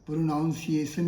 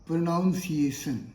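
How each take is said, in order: First: The second syllable sounds like 'noun'. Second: The second syllable sounds like 'noun'.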